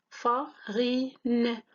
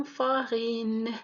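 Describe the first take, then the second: First: FARINE broken up as "fa - ri - ne"; split into syllables. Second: Said in the usual way. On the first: Shown as a demonstration. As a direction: say farine in three separate beats, "fa, ri, ne". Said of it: "trois syllabes". (farine découpé en syllabes, « fa - ri - ne ») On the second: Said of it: "de découpage en syllabes".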